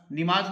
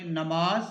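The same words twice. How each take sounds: First: नमाज said with i in the first syllable, nimaaz; the common wrong form नमाज, said nimaaz; wrong pronunciation. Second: नमाज with a short a in the first syllable, namaaz; teacher models नमाज as namaaz; correct pronunciation. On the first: (नमाज का ग़लत तलफ़्फ़ुज़, ज़ेर के साथ) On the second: (नमाज ज़बर के साथ) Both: Shown as a demonstration. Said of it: "नमाज नहीं पढ़ेंगे".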